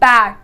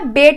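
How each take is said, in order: First: The vowel is an open 'ae' sound. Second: The vowel is a mid 'e' sound. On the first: The speaker calls it right. "हम बोल रहे हैं बैट" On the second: The speaker calls it wrong. "बेट नहीं बोल रहे"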